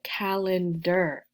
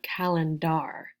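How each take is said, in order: First: "calendar" ending in a reduced "der", like "er". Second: "calendar" ending in a full "dar", rhyming with car; wrong full-vowel ending. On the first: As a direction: say "calendar" as CAL-en-der, last vowel weakened. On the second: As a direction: say "calendar" as CAL-en-DAR with an open AH. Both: Shown as a demonstration. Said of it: "not calendar".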